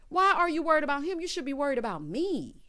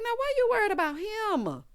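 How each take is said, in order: First: Quicker, high mock scolding; imitated indignant scolding. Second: Imitated indignant whine. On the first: Danny telling Howard to worry about her, brisk indignation. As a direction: rattle it off high, landing on ME. Repeats the complaint faster. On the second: Danny scolding Howard, high mock-indignant wail. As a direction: wail it high, stretching HIM. Acted indignant complaint, first take.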